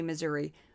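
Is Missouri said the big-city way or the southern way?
big-city. Pronounced the way major-city speakers say it. "if you live in a major city, you say Missouri"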